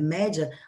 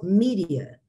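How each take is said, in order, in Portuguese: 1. A primeira vogal soa como 'eh'. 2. A primeira vogal soa como 'ee'. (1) "como os portugueses que falam os média" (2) "na pronúncia americana virou mídia"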